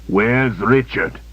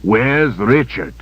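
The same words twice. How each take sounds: First: Cold interrogation. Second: Slow, pressing, a bit louder; cold interrogation. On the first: Villain interrogates slowly. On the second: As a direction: press her harder. Villain repeats louder. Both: Acted.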